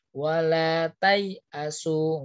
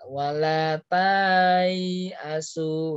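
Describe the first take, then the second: First: The vowel is read short, without lengthening. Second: The vowel is drawn out long. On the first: The speaker calls it right. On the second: The speaker calls it wrong.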